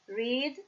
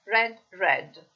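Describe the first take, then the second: First: "read" with a long ee, like "reed"; present-tense pronunciation. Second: "read" with a short e, like "red"; past-tense pronunciation. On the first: ("read" pronunciato con la i lunga, "riid") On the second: ("read" pronunciato con la e breve, "red") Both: Shown as a demonstration. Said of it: "Qua cambia la pronuncia però".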